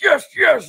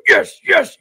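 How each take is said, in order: First: Very high falling Yes, yes in dub voice; mock Piccolo yes. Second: Very high, far dub voice saying Yes, yes; mock Piccolo yes. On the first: Streamer ending the Piccolo dub imitation, high falling mock voice. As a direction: let "Yes, yes" fall high and cartoonish. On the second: Streamer imitating Piccolo's dub line, high mock voice. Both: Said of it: "he was like".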